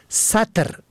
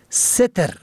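First: ستر said "satr"; فتحه on first letter. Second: ستر said "setr"; کسره on first letter. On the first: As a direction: say ستر with a short a after s. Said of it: "به فتح اول". (ستر با فتحهٔ سین: سَتر) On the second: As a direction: say ستر with a short e after s. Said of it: "به کسر اول". (ستر با کسرهٔ سین: سِتر) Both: Shown as a demonstration.

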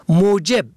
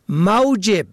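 First: موجب said as mojeb, o first; damma on first letter. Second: موجب said as mawjeb, a first; fatha on first letter. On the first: Teacher contrasting homographs, mojeb with damma. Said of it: "به ضم اول". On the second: Teacher contrasting homographs, mawjeb with fatha. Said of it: "به فتح اول". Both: Shown as a demonstration.

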